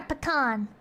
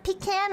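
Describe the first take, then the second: First: "pecan" with a quick puh and open AH; pecan as puh-KAHN. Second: "pecan" with long EE, then "can"; pecan as PEE-can. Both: Shown as a demonstration. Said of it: "Do you pronounce it pecan or pecan".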